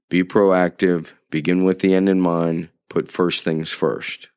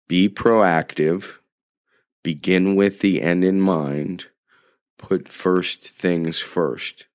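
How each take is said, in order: First: It is said at normal speed. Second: It is said slowly.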